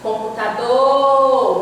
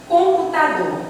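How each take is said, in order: First: "Computador" with a long drawn-out "dor"; calling the word. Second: Said in the usual way. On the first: Shown as a demonstration. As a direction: hold the last syllable of "Computador", as if calling it. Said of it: "você demora mais no do". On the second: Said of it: "chame a palavra".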